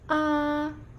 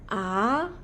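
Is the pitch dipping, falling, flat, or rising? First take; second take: flat; rising. First: The pitch stays level and flat. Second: The pitch rises like a question. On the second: "Nada dua naik seperti orang bertanya"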